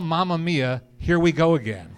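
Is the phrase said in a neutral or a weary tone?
neutral. It is said in a plain, neutral tone. It simply names the film.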